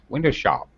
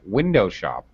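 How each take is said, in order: First: The stress falls on the later part, shop. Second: The stress falls on the first syllable, win. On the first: "I can put this the stress on the second syllable" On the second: "it has first syllable stress"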